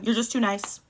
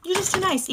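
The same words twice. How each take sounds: First: Said in the usual way. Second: "You're just too nice" said much higher, sing-song mocking; mock sweet. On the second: Telling her date off, high mocking "You're just too nice". Repeats line, second higher.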